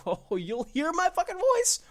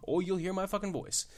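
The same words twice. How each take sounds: First: Much higher and louder, drawn out slowly; mock angry shout. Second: Said in the usual way. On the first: Shown as a demonstration. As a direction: bellow it like a furious fan, hammed up.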